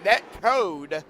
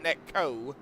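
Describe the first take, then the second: First: The word ends with a clear final d sound. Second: The word ends without the final d sound. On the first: The speaker calls it right. "net code, not net co" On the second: The speaker calls it wrong. "not net co"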